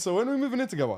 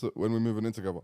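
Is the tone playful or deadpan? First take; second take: playful; deadpan. First: It is said in a playful, joking tone. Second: It is said flatly and seriously.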